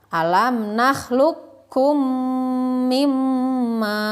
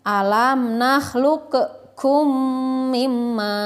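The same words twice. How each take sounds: First: The q sound is merged into the k. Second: The q sound is pronounced separately before k. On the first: The speaker calls it right. "Jadi kopnya dimasukkan saja ke huruf kaf" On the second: The speaker calls it wrong. "Pembacaan yang kurang tepat adalah seperti ini"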